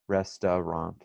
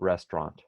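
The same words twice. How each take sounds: First: The word is said with an added 'ah' vowel. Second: The word is said in a shortened, reduced form. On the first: "às vezes eles colocam um, um som de ah" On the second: "mas a gente fala restaurant"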